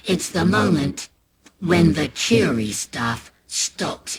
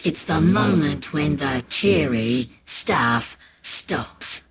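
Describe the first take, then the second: First: Slow, drawn-out warning; slow it right down for the turn; slow ominous. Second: Slow, weighty repeat; slow ominous. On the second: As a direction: let the line land slowly. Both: A narrator's reading.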